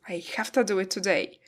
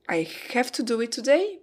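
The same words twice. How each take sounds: First: Have to is reduced to hafta. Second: Have to is said in full. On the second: "Have to becomes hafta"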